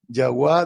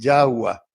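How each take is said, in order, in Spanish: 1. El acento está en la última sílaba. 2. El acento está en la primera sílaba. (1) "se acentúan en la última sílaba" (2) "tienden a volver llanas"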